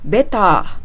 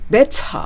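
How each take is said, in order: First: The T is soft, not strongly pronounced. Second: The T is strong and clearly pronounced. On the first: "Better ではなく" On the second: "T の音がすごく強く聞こえる"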